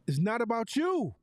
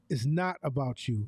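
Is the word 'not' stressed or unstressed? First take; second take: unstressed; stressed. First: The word 'not' is not stressed. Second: The word 'not' is strongly stressed.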